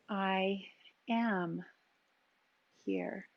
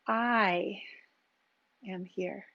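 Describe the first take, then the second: First: The word am carries the emphasis. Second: The word I carries the emphasis.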